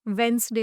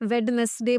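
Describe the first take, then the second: First: It is said with two syllables. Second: It is said with three syllables. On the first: The speaker calls it right. "वेंसडे होता है" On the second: The speaker calls it wrong. "वेडनेसडे बोलते हैं"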